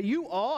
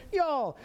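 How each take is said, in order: First: Said in the usual way. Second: Higher, one-word Texan "y'all"; Southern y'all. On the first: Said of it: "I don't have to say". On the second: Shown as a demonstration. Showing the congregation a Texas word, Southern y'all. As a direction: run "you all" into a Southern "y'all". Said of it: "I can say".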